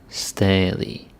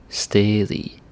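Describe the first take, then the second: The two takes are said the same way.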